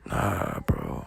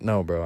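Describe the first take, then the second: First: It is said in a weak whisper. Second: It is said in a normal speaking voice. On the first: "I was dead ass, like, whispering" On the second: "like how I'm saying it right now, I didn't say it like that"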